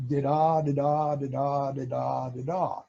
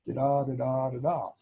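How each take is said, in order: First: Voiced Morse rhythm. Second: Da-da with the second da stressed, like a poetry meter; iambic rhythm. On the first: Showing how both paddles send alternating beeps, voiced Morse. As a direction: tap out each da-da like the keyer. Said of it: "and send". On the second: Recalling seventh grade poetry class, light iambic chant. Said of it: "iambic pentameter?". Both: Shown as a demonstration.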